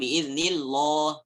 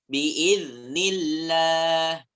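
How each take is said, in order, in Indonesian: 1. Bunyi L-nya berat dan tebal. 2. Bunyi L-nya ringan dan tipis. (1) "bukan biiznillah berat" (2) "dengan tipis"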